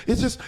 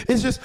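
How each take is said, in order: Both takes have the same delivery.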